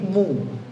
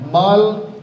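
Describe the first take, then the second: First: The vowel is said with rounded lips. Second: The vowel is said with unrounded lips. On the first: The speaker calls it right. "Monyongkan mu" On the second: The speaker calls it wrong. "Dhammah kalau tidak dimonyongkan maka bunyinya akan menjadi mo"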